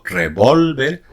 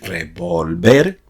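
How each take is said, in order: First: The stress is on the middle syllable. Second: The stress is on the last syllable. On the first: It is the noun for a firearm. "no revolver" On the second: It is the verb meaning to stir. "haciendo el acento prosódico en la última sílaba"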